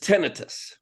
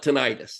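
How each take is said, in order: First: It is said the way it is spelled. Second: It is said the American way.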